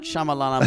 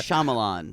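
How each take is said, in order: First: The name ends with an extra 'a' sound. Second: The name ends on the 'n' sound. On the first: The speaker calls it wrong. "It's not Shyamalana" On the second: The speaker calls it right. "It's Shyamalan"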